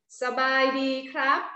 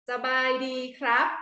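Both takes have the same delivery.

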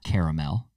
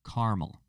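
First: The middle vowel is pronounced in the word. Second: The middle vowel is dropped from the word. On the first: The speaker calls it wrong. "Not caramel. You're adding the A" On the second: The speaker calls it right. "Don't add the A"

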